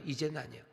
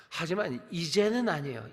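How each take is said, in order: First: Repeated much softer, falling; soft echo. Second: Said in the usual way. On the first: Shown as a demonstration. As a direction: let the words sink, softer. (훨씬 부드럽게 되뇌는 말투)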